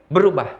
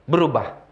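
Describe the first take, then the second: Both takes have the same delivery.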